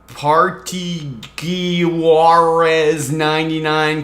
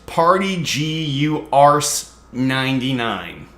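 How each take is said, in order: First: The middle part is said as one word. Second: The middle part is said as separate letters. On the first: The speaker calls it wrong. "I'm going to actually say it wrong first" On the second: The speaker calls it right. "It's pronounced"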